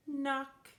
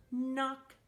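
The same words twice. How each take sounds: The two takes are said the same way.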